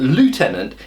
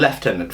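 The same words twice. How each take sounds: First: It is said with the American pronunciation. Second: It is said with the British pronunciation. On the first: The speaker calls it right. "is actually more correct than" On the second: The speaker calls it wrong. "The British are wrong"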